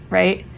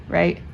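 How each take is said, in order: Both takes have the same delivery.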